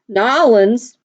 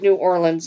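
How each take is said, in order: First: The name is run together into two syllables. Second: The name is said in full, every syllable. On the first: This is how locals say the name. "let me say it correctly" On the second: This is how outsiders say the name. "I'm from Colorado. We say it New Orleans"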